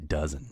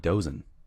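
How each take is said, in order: First: The first vowel sounds like in 'does'. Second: The first vowel sounds like in 'doze'. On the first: "It doesn't look like it would be pronounced that way" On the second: "dozen looks like dozen, which should mean something completely different"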